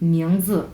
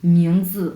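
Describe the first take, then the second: The two takes are said the same way.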